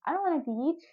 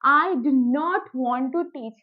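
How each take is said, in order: First: The words are contracted into don't and wanna. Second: Every word is said fully and separately. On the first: This is casual spoken slang. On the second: This is the form for writing.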